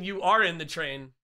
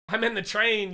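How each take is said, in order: First: Are leaned on, falling; insisting You ARE in the train; stress on are. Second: Said in the usual way. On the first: Shown as a demonstration. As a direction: punch the word are in the retort.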